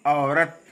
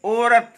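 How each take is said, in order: First: औरत with a full au glide, lower; correct pronunciation. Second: औरत opening on a plain o, "orat"; wrong pronunciation. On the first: Teacher correcting the slip, correct pronunciation. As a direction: open औरत on a clear au. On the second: Teacher showing the slip, wrong pronunciation. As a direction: say औरत with a pure o. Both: Shown as a demonstration. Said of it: "औरत नहीं".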